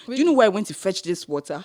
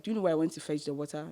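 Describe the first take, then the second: First: Louder, indignant challenge, retold; mock confrontational question; indignant retort. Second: Quick, softer retold question; politely lowered challenge; toned-down retort. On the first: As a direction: push back at her with some force. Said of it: "Wait, you told her?". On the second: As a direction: say it fast with the tone down. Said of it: "In a polite way".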